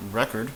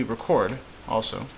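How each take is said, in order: First: "record" stressed REC-ord; "record" as a disc; noun record. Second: "record" stressed re-CORD; verb record. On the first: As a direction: stress the first syllable of "record". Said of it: "probably is record". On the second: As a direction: stress the second syllable of "record". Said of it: "could be record also". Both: Shown as a demonstration.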